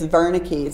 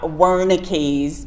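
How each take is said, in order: First: The name is pronounced the German way. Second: The name is pronounced the English way. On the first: The speaker calls it right. "It's Wernicke's" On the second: The speaker calls it wrong. "it's not Wernicke's"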